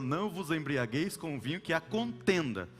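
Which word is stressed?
contenda. The emphasis falls on the word contenda. Drinking is fine if there is no strife. "Tem gente que coloca na contenda"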